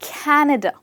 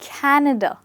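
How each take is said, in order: No difference in how they are said.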